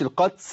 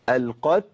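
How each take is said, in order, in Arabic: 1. التاء تنتهي بصوت س قوي يشبه الهسيس. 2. التاء تنتهي بنفس خفيف. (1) "لا ما تنفعش كده" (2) "ادي الهمس بتاع التاء واللي ما فيهوش مبالغه"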